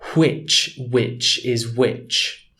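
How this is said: The wh is breathy, in a formal accent.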